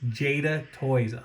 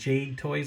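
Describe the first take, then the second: First: The first word is said as two syllables. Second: The first word is said as one syllable. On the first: The speaker calls it right. "I'm so sorry for mispronouncing the name" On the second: The speaker calls it wrong. "I said Jade Toys. I do apologize"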